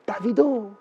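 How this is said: The name is said the European, Parisian way.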